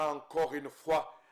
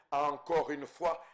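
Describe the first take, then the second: No difference in how they are said.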